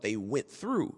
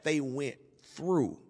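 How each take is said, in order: First: Said in the usual way. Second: "went through" slowed, with "through" set apart; pause, then land hard on "through"; stress on THROUGH. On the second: Real, not acted. Word play on having come through.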